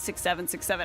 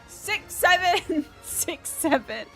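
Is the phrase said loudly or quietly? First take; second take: quietly; loudly. First: It is said quietly and casually. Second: It is said loudly, like a yell. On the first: It is shared privately with one person. "it wasn't just like this intimate conversation" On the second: It is announced to everyone around. "I yelled it across my department"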